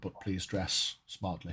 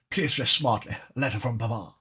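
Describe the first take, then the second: First: Put-on "please dress smartly" in a soft, lightly posh English accent; quiet posh English sign-off; understated posh English accent. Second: Hammed-up posh English accent. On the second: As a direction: ham up the posh English sign-off a little more. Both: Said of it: "saying it in a posh accent".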